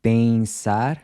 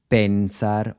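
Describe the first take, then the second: First: "pensar" slowly, as "peing-sar"; nasal EN in "pensar", tongue off the roof; Portuguese nasal EN. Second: "pensar" with a full N, tongue touching the roof; wrong "pensar", as "pen-sar" with clear N; English-style hard N. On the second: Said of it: "avoid pronouncing the N like you would in English". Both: Shown as a demonstration.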